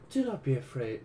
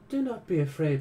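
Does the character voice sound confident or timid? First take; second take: timid; confident. First: It slips into a different, timid character voice. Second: It uses a confident, warm character voice. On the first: The speaker calls it wrong. "I'm going back into different voice" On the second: The speaker calls it right. "she's more like confident and outgoing"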